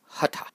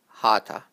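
First: The first vowel is short. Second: The first vowel is long. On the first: The speaker calls it right. "both the A's are short" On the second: The speaker calls it wrong. "people make the first A long and say hatha"

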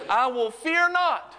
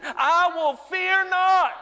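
First: It is said at an ordinary, calm level. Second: It is said loudly, with strong passion.

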